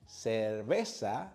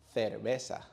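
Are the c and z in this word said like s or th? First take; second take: s; th. First: The c and z are said with s sounds. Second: The c and z are said with th sounds. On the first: This is how most Latin Americans say it. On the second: This is how many speakers in Spain say it.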